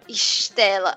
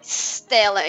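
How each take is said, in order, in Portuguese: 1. A palavra é falada com o sotaque local. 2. A palavra é falada com sotaque paulistano. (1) "e não Stella" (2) "E depois você falou, Stella"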